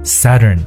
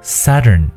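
First: The first vowel is a short central 'uh' sound. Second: The first vowel is a short central 'uh' sound.

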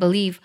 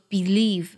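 First: The first vowel is weak and reduced. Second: The first vowel is full and stronger. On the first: "我读的时候呢会把believe 这个单词读成believe，美音当中呢会把b 这个音节读作b 的音，这是元音的弱读。" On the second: "英音当中就会读的比较重，读作believe。"

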